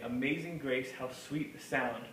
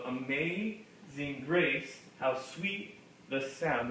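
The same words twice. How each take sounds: First: The syllables flow with ordinary, lighter beats. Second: Every second syllable is hit hard and evenly. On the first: "even when we say it normally" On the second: "we don't we don't say it like that"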